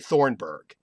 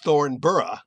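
First: The ending is said the present-day American way. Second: The ending is said the Scottish way. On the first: This is how people say it today. "We would say Thornburg" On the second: This is how it was probably said originally. "as they would be in Scotland"

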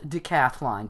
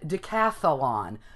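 First: No extra vowel is inserted in the word. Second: An extra vowel is inserted in the word. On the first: The speaker calls it right. "it's spelled decathlon" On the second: The speaker calls it wrong. "I've always said decathlon ... You want to throw in that sound in there, but it's not"

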